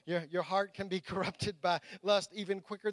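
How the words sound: It is read in a put-on pirate voice.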